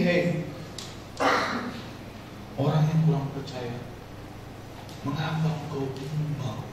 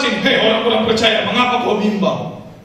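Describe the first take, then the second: First: It is said in a gentle tone. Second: It is said in an angry tone.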